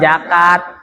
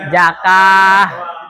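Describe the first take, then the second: First: The word ends with a t sound. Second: The word ends with an h sound. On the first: The speaker calls it wrong. "bukan zakat" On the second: The speaker calls it right. "Setiap tamar butoh jika wakof dibaca hasukun"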